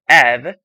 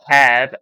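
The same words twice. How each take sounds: First: The word is said without the h sound. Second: The word starts with a clear h sound. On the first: "you just need to take this H out" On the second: "Instead of have"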